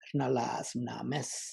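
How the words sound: The vowel is said with a creaky voice.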